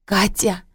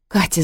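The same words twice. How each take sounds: First: Mildly plaintive call; plaintive hoarse cry. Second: Mild narrated cry; calling out. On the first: Mother leaving, calling to her daughter, plaintively. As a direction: call the name out pitifully, understated. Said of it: "жалобно выкрикнула она хриплым голосом". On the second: Mother calling daughter through the door, restrained cry. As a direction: call the name out, only slightly raised. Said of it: "закричала она". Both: A narrator's reading.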